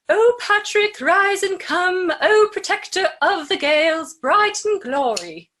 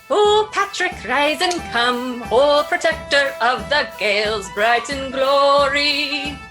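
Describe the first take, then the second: First: It is said in a British accent. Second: It is said in an Irish accent.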